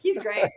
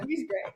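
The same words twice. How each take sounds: First: Said in the usual way. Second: Quieter echo; softer repeat. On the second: Real, not acted. Wife repeating praise of husband, quietly. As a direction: say it again under your breath.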